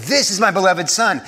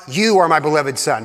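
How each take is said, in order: First: "This" lifted as the contrasting word; stress on This. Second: "You" leaned on, as if addressed privately; stress on You. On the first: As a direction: proclaim it publicly, leaning on "This". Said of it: "sounds more like a public proclamation". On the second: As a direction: point the word "You" at one person. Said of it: "Not, "You are my beloved Son," but". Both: Shown as a demonstration.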